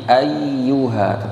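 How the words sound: The voice stresses the doubled consonant but keeps flowing. The speaker calls it right. "tapi ayyuha, tetap mengalir"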